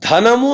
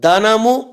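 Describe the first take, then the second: First: The first consonant is breathy and aspirated. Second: The first consonant is plain and unaspirated. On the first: It means money. The speaker calls it right. "ధనము అని కాకుండా" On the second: The meaning changes. The speaker calls it wrong. "అల్పప్రాణము పలికితే అక్కడ అర్థమే మారిపోతుంది"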